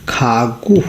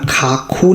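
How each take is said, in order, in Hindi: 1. बीच का व्यंजन घोष g ध्वनि है। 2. बीच का व्यंजन अघोष k ध्वनि है। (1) "खागु होगा इसका करेक्ट उच्चारण" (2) "इसका उच्चारण खाखू नहीं होगा"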